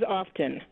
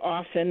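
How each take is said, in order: First: The t sound is clearly pronounced. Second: The t sound is left out.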